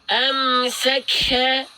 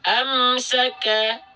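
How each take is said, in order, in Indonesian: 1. Bunyi k diucapkan dengan tekanan yang berlebihan. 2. Bunyi k diucapkan dengan ringan dan alami. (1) "jangan sampai dibaca seperti ini" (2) "enggak tapi"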